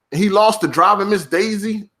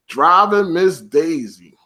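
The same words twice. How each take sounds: First: Said in the usual way. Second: Driving Miss Daisy, drawn out slowly; slow disbelief. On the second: Real, not acted. Repeats title in disbelief.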